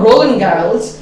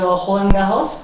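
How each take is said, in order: First: The name is said with an English accent. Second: The name is said with a French accent. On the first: This is the name as the speaker knew it. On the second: This is how locals say the name.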